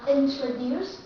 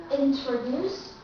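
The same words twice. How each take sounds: First: Introduce, TR released again clearly; clear true T. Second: Introduce, TR said clearly; clear true T. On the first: Teacher repeating word on request. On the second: Teacher modelling word after listen. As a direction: Introduce slow with a full TR. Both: Shown as a demonstration.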